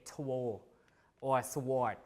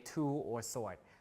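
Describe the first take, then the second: First: A W sound is pronounced after the T and S. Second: No W sound is pronounced after the T and S. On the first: The speaker calls it wrong. "But we don't say two or sword" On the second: The speaker calls it right. "We say two or sword. So W is not pronounced"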